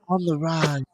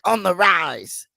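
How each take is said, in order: First: It is said in a sultry, sexy way. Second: It is said in a plain, tough way.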